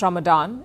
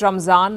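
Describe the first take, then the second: First: The middle consonant is a d sound. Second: The middle consonant is a z sound. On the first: This is the form used elsewhere. "not Ramadan" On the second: This is the form used in India. "we call it Ramzan, It is based on the Persian pronunciation"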